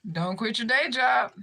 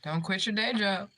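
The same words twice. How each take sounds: First: Laughing. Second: Said in the usual way. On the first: Real, not acted. Mocking the troll a second time, laughing through it. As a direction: repeat the taunt through a laugh. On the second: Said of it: "repeats the taunt".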